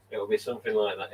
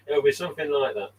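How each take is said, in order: First: Said in the usual way. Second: Higher, louder playful take; still playful. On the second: Acted. First of two takes to stream viewers, playful lift. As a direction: keep the teasing lift going.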